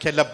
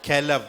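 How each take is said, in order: First: The word ends with a p sound. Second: The word ends with a v sound. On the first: "pronunciation அப்படி இருக்கும்" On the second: "கெலவ் இல்ல கெலப் அப்படின்னு சொல்லலாம்"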